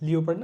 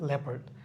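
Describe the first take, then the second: First: It begins with a long 'lee-o' sound. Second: It begins with a short 'lep' sound. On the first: The speaker calls it wrong. "লিওপার্ড হবে না" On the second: The speaker calls it right. "এটা আমাদের ল্যাপার্ড হবে"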